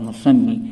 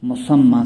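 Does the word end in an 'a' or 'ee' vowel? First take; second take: ee; a. First: The word ends with an 'ee' vowel. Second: The word ends with an 'a' vowel. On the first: The speaker calls it wrong. "गलत तलफ़ुज़ है" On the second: The speaker calls it right. "सही है"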